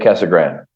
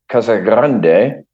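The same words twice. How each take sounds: First: The R is plain and the final E silent. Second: The R is rolled and the final E pronounced. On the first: This is the relaxed local pronunciation. "a lot of the locals just say ... There's no E on it" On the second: This is the official Spanish pronunciation. "officially, ... it's Spanish, and you roll the R"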